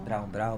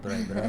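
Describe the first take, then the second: First: The vowel sounds like 'ow', ending in n. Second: The vowel sounds like 'oy', with no n. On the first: The umlaut over the vowel is ignored. "O pessoal chama de Brown Brown" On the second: The umlaut over the vowel is respected. "tem um treminho ali"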